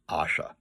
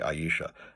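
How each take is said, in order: First: The name begins with an 'ah' sound. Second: The name begins with an 'eye' sound. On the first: This is the reading the author intended for the name. The speaker calls it right. "it should be pronounced Asha" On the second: This is the usual British reading of the name. The speaker calls it wrong. "in British pronunciation they would say Aisha"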